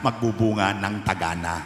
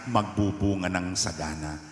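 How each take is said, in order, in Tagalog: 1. Napalitan ng t ang tunog na s. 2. Malinaw na binigkas ang tunog na s.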